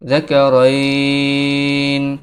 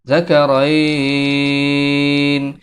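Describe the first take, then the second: No difference in how they are said.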